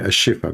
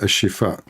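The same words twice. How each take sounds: First: The name is said with English sounds. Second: The name is said with Arabic sounds. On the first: The speaker calls it wrong. "In English, you say a Shifa because you cannot pronounce it correctly" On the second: The speaker calls it right. "It's called a Shifa"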